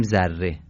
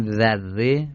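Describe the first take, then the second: First: ذره with a buzzed "z", as Persians read it; ذره begun with a plain Persian z. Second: ذره begun with a delicate interdental "dh"; dh sound in ذره. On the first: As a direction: say ذره as "zarre". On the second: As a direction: say ذره with an Arabic dhal, like "this". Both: Shown as a demonstration.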